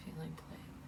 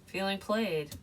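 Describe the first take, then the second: First: "Feeling played" repeated much softer, fading away; soft echo. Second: Said in the usual way. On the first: Shown as a demonstration. Tarot reader echoing "Feeling played" to herself, much softer. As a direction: let "Feeling played" fall to a near hush.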